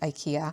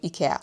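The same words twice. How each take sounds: First: It is said with the American pronunciation. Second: It is said with the European pronunciation. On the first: "In the U S, and I think Canada, you pronounce it IKEA" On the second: "In Europe, we call it, at least in Austria and in Sweden, where IKEA is from, we say IKEA"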